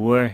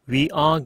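First: The words merge into one short syllable. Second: Both words are said fully as two syllables.

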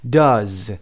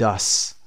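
First: The word ends with a voiced z sound. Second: The word ends with a voiceless s sound. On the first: The speaker calls it right. "صدای ز بدید در انتها" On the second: The speaker calls it wrong. "نمیتونید بگید does"

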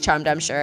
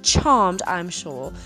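First: It is said in the speaker's normal accent. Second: It is said in a put-on English accent. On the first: "Forget that" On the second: "I had to say it like that. It always makes me think of like English people"

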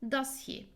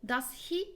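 First: The voice falls at the end. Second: The voice does not fall at the end. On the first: The speaker calls it right. "Aşağı doğru iniyor. Yani vurgum aslında does'da" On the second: The speaker calls it wrong. "Does he değil"

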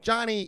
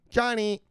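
First: The name is said in an annoyed, scolding tone. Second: The name is said in a sweet, affectionate tone. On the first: The speaker is unhappy about losing money. "your wife was talking a little different" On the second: The speaker is pleased about making money. "now her fucking voice has changed. The tone has changed"

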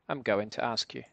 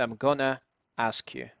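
First: 'Going to' is said in full. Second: 'Going to' is reduced to 'gonna'.

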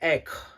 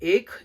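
First: The word is pronounced the Bengali way. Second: The word is pronounced the Hindi way. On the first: "ബംഗാളിയിൽ ഏക്" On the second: "ഹിന്ദിയിൽ ഏക് എന്നാണ്"

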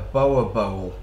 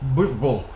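First: The name sounds like 'boa bowl'. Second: The name sounds like 'burble'. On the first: The speaker calls it wrong. "I'd call it a boa bowl, but what's the proper way of saying it?" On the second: The speaker calls it right. "the proper way of saying it"

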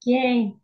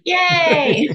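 First: It is said with little enthusiasm. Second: It is said with more enthusiasm.

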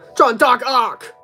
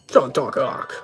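First: The phrase is said loudly. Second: The phrase is said quietly.

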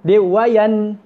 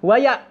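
First: The n is pronounced fully and clearly. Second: The n merges into the following consonant. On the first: The speaker calls it right. "jelas wayan" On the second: The speaker calls it wrong. "dia tak masuk dalam huruf hamzah"

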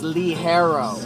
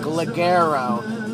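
First: The middle consonant is an h-like sound. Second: The middle consonant is a hard g sound. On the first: The speaker calls it right. "but it's pronounced Lee Harrow" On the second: The speaker calls it wrong. "it looks like Ligero"

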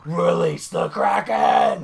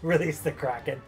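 First: It is screamed very loudly. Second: It is said at normal volume.

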